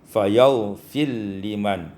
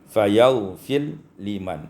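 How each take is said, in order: No difference in how they are said.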